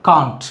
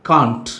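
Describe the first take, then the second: The two takes are said the same way.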